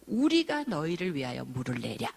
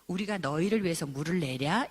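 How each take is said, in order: First: It is said angrily, like a forceful outburst. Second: It is said gently, like a mild question.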